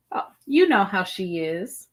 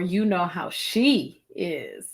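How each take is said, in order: First: "you" lifted with a rising tune; stress on you. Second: "she" stressed, falling, said slowly; slow down and hit "she"; weight on "she" in "you know how she is". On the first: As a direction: lean on "you" and let it rise. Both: Shown as a demonstration. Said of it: "using different emphasis on different words".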